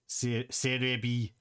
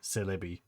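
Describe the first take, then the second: First: The middle consonant is an R sound. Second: The middle consonant is an L sound. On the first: The speaker calls it wrong. "pronouncing it the Japanese way" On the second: The speaker calls it right. "Not Serebii, Celebi"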